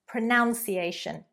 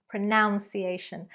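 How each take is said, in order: Both takes have the same delivery.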